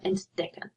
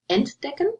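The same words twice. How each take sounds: First: The stress is on the second syllable. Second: The stress is on the first syllable. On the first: The verb is inseparable. The speaker calls it right. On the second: The verb would be separable. The speaker calls it wrong.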